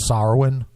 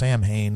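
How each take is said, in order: First: It is said like 'sah-win', with no h sound. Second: It is said as spelled, like 'sam-hain'. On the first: "I've heard it pronounced Sarwin. ... as more the Celtic" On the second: "If you're pronouncing it phonetically English-wise"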